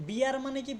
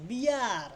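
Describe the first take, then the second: First: Said in the usual way. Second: বিয়ার stretched as "bee-yaaar"; drawn-out iya sound. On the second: Shown as a demonstration. Teacher showing the iya rule on বিয়ার, stretched out. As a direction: sound out বিয়ার with a long ee-yaa glide. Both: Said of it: "দেখো ইয়া উচ্চারণ আসছে".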